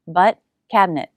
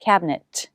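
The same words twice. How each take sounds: First: "cabinet" with the final T released. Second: "cabinet" with the final T stopped, not released. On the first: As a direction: let the T in "cabinet" pop out. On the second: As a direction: cut the air on the T of "cabinet". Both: Shown as a demonstration. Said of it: "I'm not releasing the T".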